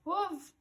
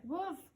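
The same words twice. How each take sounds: First: High, loud warning cry; panicked yell. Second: Muffled by the spear in his teeth; panicked cry around a spear. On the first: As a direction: shout the danger down to her. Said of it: "yells down at me". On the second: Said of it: "his eyes full of panic". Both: A narrator's reading.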